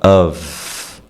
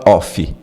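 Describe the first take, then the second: First: The word ends with a V sound. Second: The word ends with an F sound. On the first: The speaker calls it right. "É um som de V" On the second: The speaker calls it wrong. "você não fala off"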